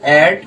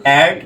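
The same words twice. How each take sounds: The two takes are said the same way.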